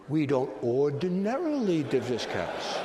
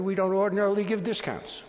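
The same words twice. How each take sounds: First: Slow, savoring "ordinarily" with a falling tune; stress on ordinarily. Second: Said in the usual way. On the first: Shown as a demonstration. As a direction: linger on "ordinarily".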